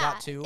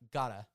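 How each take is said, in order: First: The two words are said fully and separately. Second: The two words merge into one short word. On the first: The speaker calls it wrong. "It's not got to" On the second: The speaker calls it right. "It's like gotta"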